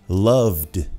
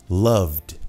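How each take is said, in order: No difference in how they are said.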